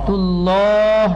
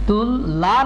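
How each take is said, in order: First: The word is joined smoothly with a held sound. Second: The word is split into two separate parts. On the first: The speaker calls it right. "টান রাখেন তুল্লাহ" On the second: The speaker calls it wrong. "ঠিক এইভাবে তুল লা না বলে"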